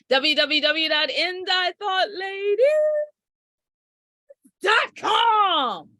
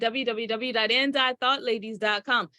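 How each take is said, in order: First: It is said like a pushy car salesman. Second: It is said in a plain, bland voice.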